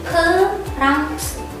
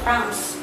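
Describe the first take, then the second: First: It is pronounced the Korean way. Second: It is pronounced the English way. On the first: "Di Koreanya jadi" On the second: "Kalau bahasa Inggrisnya itu kan"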